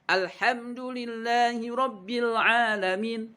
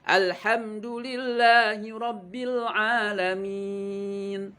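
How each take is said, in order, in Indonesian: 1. Bunyi mad dipendekkan. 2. Bunyi mad dibaca panjang penuh. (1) "yang harus dibaca panjang malahan dibaca pendek ... Salah" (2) "Harusnya seperti itu"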